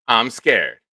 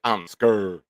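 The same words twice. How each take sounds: First: Said in the usual way. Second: "scared" drawn out as "skurr"; mimicked pronunciation. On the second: Host mimicking how viewers say it, "scared" slurred into "skurr". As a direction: say "scared" with a long er vowel, like "skurr". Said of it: "You guys say it like".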